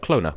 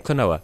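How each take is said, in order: First: The second O is left out entirely. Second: The second O is a full vowel. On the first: "without the second O" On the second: "in English, people say Klonoa"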